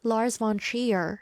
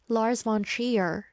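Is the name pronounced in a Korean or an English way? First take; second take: English; English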